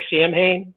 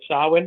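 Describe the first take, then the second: First: The word is pronounced the way it is spelled. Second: The word is pronounced differently from its spelling. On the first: The speaker calls it wrong. "It looks like" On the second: The speaker calls it right.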